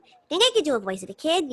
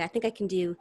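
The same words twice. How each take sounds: First: High-pitched put-on kid voice; little kid voice. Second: Said in the usual way. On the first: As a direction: pipe up like a little child. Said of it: "the voice of a little kid".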